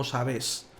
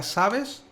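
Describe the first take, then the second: First: "sabes" as sa-BÉS, low and falling; weight the second syllable of "sabes", softer; lower, softer sa-BÉS; stress on final syllable. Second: "sabes" as SA-bes, pitched high and rising; higher, rising SA-bes; stress on first syllable. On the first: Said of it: "la fuerza la está poniendo en la última sílaba". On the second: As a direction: hit SA in "sabes", ending upward. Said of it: "me da igual que me diga". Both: Shown as a demonstration.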